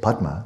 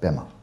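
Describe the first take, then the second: First: The word has a 'd' sound before the m. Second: The word has no 'd' sound before the m. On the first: This is the Sanskrit form. "which you don't have either in Tibetan" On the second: This is the Tibetan form. "it comes out Pema"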